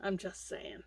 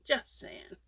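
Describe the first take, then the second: First: Said in the usual way. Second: Breathy whisper of the repeat; whispered aside. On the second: Real, not acted. Vlogger whispering advice to newbie crocheters. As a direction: drop it to a whisper, teasing.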